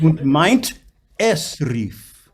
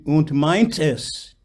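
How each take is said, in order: First: "meint", a clear break, then a fresh "es"; reattacked vowel. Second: "meint es" slowly, the T carried onto "es"; words run together. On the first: Coach correcting singer, "meint" and "es" cleanly separated. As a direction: finish "meint" strongly, pause, attack "es" anew. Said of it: "Reattack the word". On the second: Coach showing singer the mistake, "meint es" linked into "tes". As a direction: join "meint es" so it sounds like "tes". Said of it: "You don't say". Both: Shown as a demonstration.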